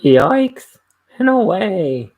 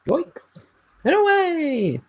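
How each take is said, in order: First: Very loud cartoon shout, high; cartoon character voice. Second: Very high, loud cartoon cry; cartoon character voice. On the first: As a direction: belt it out like a cartoon hero. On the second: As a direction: shout it like a cartoon hero taking off. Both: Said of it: "cartoon character voice".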